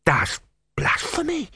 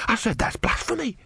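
First: Much higher, scandalized; horrified novice. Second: Higher, repeating it firmly; insistent novice. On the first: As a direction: gasp out the accusation. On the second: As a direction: say it again, scandalized. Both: A narrator's reading.

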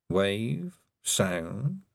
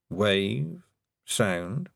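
The two takes are said the same way.

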